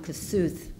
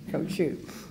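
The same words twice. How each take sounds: First: The name is said with an anglicized pronunciation. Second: The name is said with a Hungarian pronunciation. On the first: The speaker calls it wrong. "I've been calling him Kossuth through grade school and high school" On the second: The speaker calls it right. "now I know it's Kossuth"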